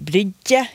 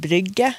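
First: The middle consonant is a soft dj sound. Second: The middle consonant is a plain hard g. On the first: This is how some dialects say it. "Det er flere dialekter som kan si ... Da får du den j" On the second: This is the usual way to say it. "i stedet for"

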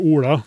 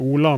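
First: The L is a thick, flapped sound. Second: The L is a thin, clear sound. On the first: "der vi ikke har den tjukke L-en, da, jeg sier jo ikke Ola" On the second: "men jeg sier Ola med tynn L"

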